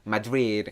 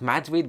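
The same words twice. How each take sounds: First: It is said with a put-on foreign-style accent. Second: It is said in a plain everyday accent. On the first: The speaker calls it right. "with like an accent" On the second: The speaker calls it wrong. "not Madrid"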